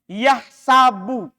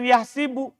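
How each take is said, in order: First: The vowel after the h is a. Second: The vowel after the h is i. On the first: The speaker calls it right. "Di Quran yahsabu" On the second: The speaker calls it wrong. "bukan yahsibu"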